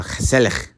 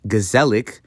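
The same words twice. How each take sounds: First: Gezellig with a throaty Dutch g at both ends; Dutch pronunciation. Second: Gezellig read as English, hard g and z; English spelling reading. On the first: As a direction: rasp both g's in gezellig like "khe-SELL-ikh". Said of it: "It's actually pronounced". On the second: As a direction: say gezellig as it looks to an English eye. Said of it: "a word that looks like it says". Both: Shown as a demonstration.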